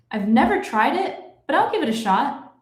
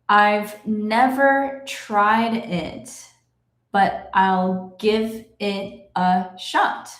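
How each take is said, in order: First: The sentence is read at natural fast speed. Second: The sentence is read very slowly. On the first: "I will read it in my normal speed" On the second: "I will read it slowly"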